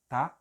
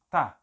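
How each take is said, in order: First: The word is shortened to one syllable. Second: The same.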